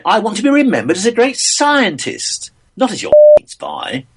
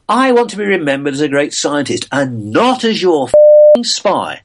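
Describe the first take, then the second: First: Much higher, indignant, stress on be and not; innocent man's outrage. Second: A former spy's bitter retort, leaning on I. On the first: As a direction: protest hard that he was never a spy, hitting not. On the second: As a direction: stress on I, said with a rising tune and a touch louder. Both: Shown as a demonstration. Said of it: "it depends how you put the emphasis on that".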